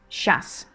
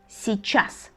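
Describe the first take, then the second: First: The word is said quickly with sounds run together. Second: The word is said fully with all its sounds.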